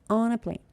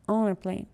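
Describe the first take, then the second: The two takes are said the same way.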